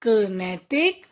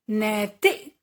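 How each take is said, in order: First: Said in the usual way. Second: "नैतिक" split as नै-ति-क; teacher's broken-up "नैतिक"; sounding out. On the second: Shown as a demonstration. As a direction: separate each syllable of "नैतिक". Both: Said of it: "कुछ ए के शब्द भी हैं".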